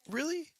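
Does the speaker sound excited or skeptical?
excited. It sounds excited and enthusiastic. The speaker is thrilled by the news. "if I'm excited about it"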